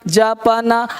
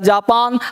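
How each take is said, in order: First: The word ends with a vowel after the last consonant. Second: The word ends directly on the final consonant. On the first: "हमने लिखा जा प न" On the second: "हो गया जापान"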